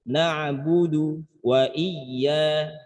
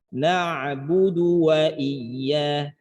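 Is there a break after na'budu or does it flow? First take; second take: break; flow. First: There is a slight stop after na'budu. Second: The words flow on without any stop. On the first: The speaker calls it wrong. "ada saktah latifah seakan-akan berhenti" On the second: The speaker calls it right. "mengalir saja"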